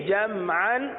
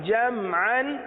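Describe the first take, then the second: The two takes are said the same way.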